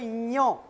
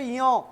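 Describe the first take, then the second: First: The tongue is raised to the palate. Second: The tongue is not raised to the palate. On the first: The speaker calls it right. "यो को ऐसे पढ़ाया था यो, तो जीभ ऊपर जाती है तालू में" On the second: The speaker calls it wrong. "ऐसे बोलोगे यो तो गलत बोल रहे हो"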